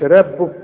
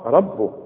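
First: The r sound is light and thin. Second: The r sound is heavy and full. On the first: The speaker calls it wrong. "مش ربه" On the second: The speaker calls it right. "كل راء ما دام مفتوحة راء"

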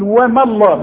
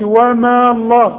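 First: The vowel after m is short, without lengthening. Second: The vowel after m is lengthened before Allah. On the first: The speaker calls it right. "يبقى بلغي المد ده، أقول وما الله" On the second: The speaker calls it wrong. "ما أقولش وما الله"

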